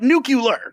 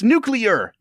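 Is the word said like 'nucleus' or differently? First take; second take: differently; like nucleus. First: The word departs from the sounds of 'nucleus'. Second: The word follows the sounds of 'nucleus'. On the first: The speaker calls it wrong. "It's not nuclear" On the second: The speaker calls it right. "it comes from the nucleus. It's nuclear"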